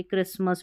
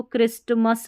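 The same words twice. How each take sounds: First: क्रिसमस with a silent T; correct pronunciation. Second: क्रिस्टमस with the T sounded; wrong pronunciation. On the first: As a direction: say क्रिसमस, S straight into M. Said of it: "क्रिसमस पढ़ते हैं". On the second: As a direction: say क्रिस्टमस with a T between S and M. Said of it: "इसको क्रिस्टमस नहीं पढ़ते". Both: Shown as a demonstration.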